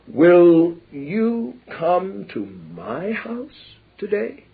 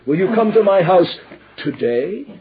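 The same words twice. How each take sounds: First: The stress is on "my". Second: The stress is on "today".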